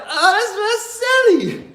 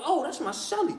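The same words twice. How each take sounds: First: Amused realization. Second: Quiet, high-pitched aside to himself; soft realization. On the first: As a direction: squeal it high, cracking up. Gleeful realization about the scared cellmate. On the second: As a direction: let it dawn on you softly. Waking realization, said softly. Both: Retold or imitated.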